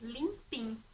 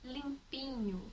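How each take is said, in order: First: The word ends with a short 'im' sound. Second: The word ends with the full 'inho' sound.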